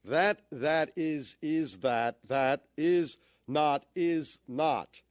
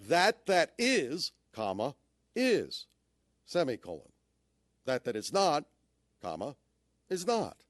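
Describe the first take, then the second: First: "That, that is" dragged out slowly and stumbling, unsure where the stress goes; groping through the sentence; halting misread. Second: A clear pause after "is not", then a final "is not" lifted; phrased with pauses. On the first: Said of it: "Try this one". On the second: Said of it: "Make it have meaning just by the way you say it". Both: Shown as a demonstration.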